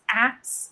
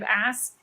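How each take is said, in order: First: The s and k sounds are swapped: aks. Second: The s comes before the k: ask.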